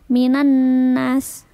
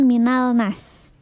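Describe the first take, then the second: First: The L merges into the following N sound. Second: The L is pronounced clearly before the N. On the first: "alif lamnya tidak dibaca" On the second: "Nah itu kan minal nas"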